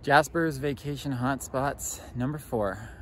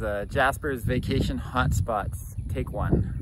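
First: TV host intro. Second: Loud, slow show-title announcement; TV host intro. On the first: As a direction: draw out the title like a host. Mock show intro, number four. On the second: Mock show intro, take one. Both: Pretend.

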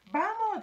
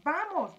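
First: High, loud excited cry; excited shout. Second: Loud eager cry; excited shout. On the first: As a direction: shout it eagerly. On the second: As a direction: call out again eagerly. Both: A narrator's reading. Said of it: "gritaron excitados".

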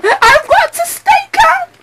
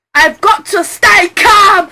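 First: Very high, shrieking in panic; high panicked cry. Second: Louder, slow insistent self-command; steady yourself out loud; stern loud reminder; firm shout. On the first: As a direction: lose it completely on the repeat. Repeated in rising panic. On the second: Panicking lawyer line, first take. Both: Acted.

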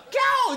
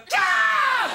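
First: Very high squeal of delight; mock delighted squeal. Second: Very high, loud shrieked scream, a different cry of alarm; mock scream of horror. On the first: Storyteller imitating the crowd's delighted squeal, very high. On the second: Storyteller imitating the crowd's squeal turning into a horrified scream, loud. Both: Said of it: "って感じの悲鳴が変わって".

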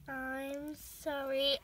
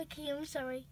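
First: Slow, drawn-out sorry; drawn-out apology. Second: Said in the usual way. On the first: Real, not acted. Owner apologising to her cat, slow drawn-out sorry. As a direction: stretch the apology out slowly.

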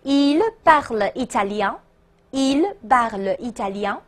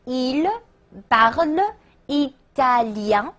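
First: Connected French phrase at a measured pace; read-along model. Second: French drawn out word by word, rising; slow model question. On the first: Teacher asking students to read along, connected model phrase. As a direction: say the whole question evenly for repetition. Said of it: "跟我读啊". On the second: Teacher building an example question, slow word-by-word. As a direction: sound out each syllable slowly for learners. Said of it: "说他讲意大利语吗". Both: Shown as a demonstration.

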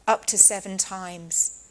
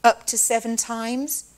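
First: Up leaned on, the phrase slowed down; slow down and weigh each word of up to seven times; stress on up. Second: Said in the usual way. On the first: Shown as a demonstration. Preacher explains the law, slowly stressing the number.

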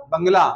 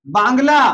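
First: "बंगला" with short vowel, bung-laa, lower; correct pronunciation. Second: "बांग्ला" with long aa, baang-laa; wrong pronunciation. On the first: Teacher answers with corrected "बंगला", short bung. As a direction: keep the first syllable of "बंगला" short. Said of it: "बांग्ला क्या होगा". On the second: Teacher reads students the faulty "बांग्ला", long baang. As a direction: stretch the first vowel of "बांग्ला". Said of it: "नहीं होगा". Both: Shown as a demonstration.

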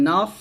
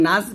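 First: নাস slow with a heavy, rounded "naws" ending; thick sad. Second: নাস with light "aa" and thin seen; wrong thin s. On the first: Teacher modelling the correct word, heavy emphatic s in নাস. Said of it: "সদ মোটা করে বলতে হবে". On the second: Teacher warning of a meaning change, thin নাস. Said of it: "নাস বললে কিন্তু এটা সিন হয়ে যাবে". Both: Shown as a demonstration.

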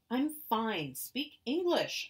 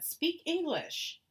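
First: Loud, high, slow shout. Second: Loud, high, slow demand; angry demand. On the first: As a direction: shout it in frustration. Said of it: "I was shouting". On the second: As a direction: spit it out at her. Child demands angrily. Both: Acted.

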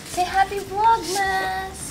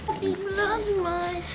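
First: Slow, high coaxing to a bird; teaching a parrot. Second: Soft, slow, high model phrase; teaching a parrot. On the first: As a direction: draw the words out for the parrot. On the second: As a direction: say it softly for the bird to copy. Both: Shown as a demonstration.

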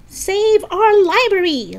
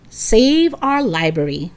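First: High, slow rallying shout. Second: Said in the usual way. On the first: Acted. Lisa rallies the protest at the library, shouting. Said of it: "Lisa shouted".

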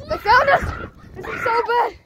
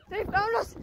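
First: High frantic shout; panicked yell. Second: Said in the usual way. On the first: Real, not acted. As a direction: yell it in alarm. Spotted during hide and seek.

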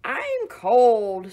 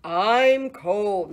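First: Loud, squealing pig voice. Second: Loud, mooing complaint of cold; mooing cow. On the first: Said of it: "squealed the pig". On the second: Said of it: "mooed the cow". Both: Acted.

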